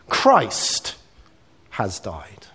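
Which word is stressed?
Christ. The stress falls on the word Christ. The focus is on the person. "it's centered on the person"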